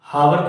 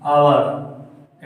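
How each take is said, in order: First: It starts with a clear h sound. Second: It starts with a vowel, no h sound. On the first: The speaker calls it wrong. "हावर थोड़ी बोलते हैं" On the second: The speaker calls it right. "एच नहीं"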